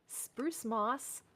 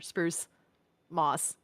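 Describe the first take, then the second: First: The two words run together without a pause. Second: There is a pause between the two words. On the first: It names a single kind of moss. The speaker calls it wrong. "I don't know why I said spruce moss" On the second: It names two separate items. The speaker calls it right. "There's supposed to be like a pause there"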